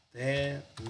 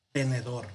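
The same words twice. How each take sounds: First: "Tenedor" split into te, ne, dor; syllable by syllable. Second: Said in the usual way. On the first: Shown as a demonstration. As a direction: break "Tenedor" into three separate syllables with pauses. Profesor silabea la palabra de ejemplo. ("Tenedor" separado en te, ne, dor, con pausas)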